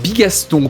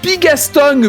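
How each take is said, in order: First: The name ends without any g sound. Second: The name ends with an audible g sound. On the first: The speaker calls it right. "tu n'as pas de G derrière" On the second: The speaker calls it wrong. "c'est pas le bon accent pour me présenter"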